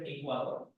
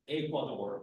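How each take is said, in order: First: It is said with a Spanish accent. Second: It is said with an English accent. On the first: Listeners do not understand it. The speaker calls it wrong. "instead of Ecuador, they don't understand Ecuador" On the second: Listeners understand it. The speaker calls it right. "you need to make like the ridiculous accent to say"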